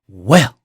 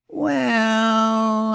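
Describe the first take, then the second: First: It is said in a shocked, offended tone. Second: It is said in a doubtful, skeptical tone. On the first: The speaker feels deeply insulted. "I've never been so insulted" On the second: The speaker is unsure about the claim. "I don't know about that"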